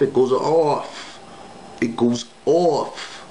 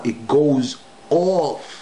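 First: Slow, dragged out it goes off; drawn out. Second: Very slow, higher it goes off. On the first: Describing the girl's contorted smile, slowly dragged out. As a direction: stretch each word slowly for effect. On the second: The last repeat about the contorted smile, slower and higher. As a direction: drag it out and lift it once more. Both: Shown as a demonstration. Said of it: "One more time".

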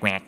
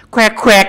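First: Said in the usual way. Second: แควกแควก quacked high and loud like a duck. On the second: Shown as a demonstration. Streamer shows chat แควกแควก is a duck's quack. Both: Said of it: "นี่มันเป็ดนะ".

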